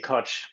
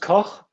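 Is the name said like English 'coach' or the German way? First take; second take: coach; German. First: The name is said like the English word coach. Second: The name is said with German pronunciation. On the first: This is how the bearer of the name says it. "I say Koch. [name]" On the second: This is the original pronunciation of the name. "it's German and uh, it's it's pronounced Koch"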